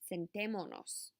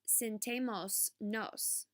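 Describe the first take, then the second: First: No s sound comes before the final nos. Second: An s sound comes before the final nos. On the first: The speaker calls it right. "It is" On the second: The speaker calls it wrong. "is not"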